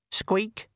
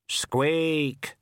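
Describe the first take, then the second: First: High, pitiful rat squeak; a tiny ghost rat's feeble cry; pathetic squeak. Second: Grave, falling squeak; a tiny Death answering solemnly; death of rats squeak. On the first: Ghost of the rat squeaking pitifully at Death. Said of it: "said the ghost of the rat pathetically". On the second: The Death of Rats answering the rat, grave squeak. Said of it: "said the death of rats". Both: A narrator's reading.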